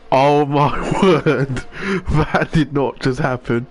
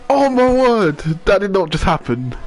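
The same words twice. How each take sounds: First: Slow, laughing disbelief; shocked laughter. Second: High, loud stunned disbelief; can't believe what you just saw; shocked. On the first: Laughing at the crash. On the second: Reacting to crash on stream. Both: Real, not acted.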